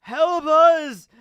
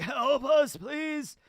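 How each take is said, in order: First: Much louder and higher final beg; hammed-up dying cry for help; desperate dying plea. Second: Lightly voiced dying soldiers begging, high pitched; a faint, pitched-up beg for help from the dying; hammed-up dying plea. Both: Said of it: "members of Cypher Pole are like".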